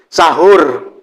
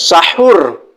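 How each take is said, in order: First: The h is a plain, soft h sound. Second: The h is harsh and breathy from the throat. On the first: This is the common local way of saying it. The speaker calls it wrong. "Karena kita ini tradisi di di Indonesia ini sahur" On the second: This follows the original Arabic letter. The speaker calls it right.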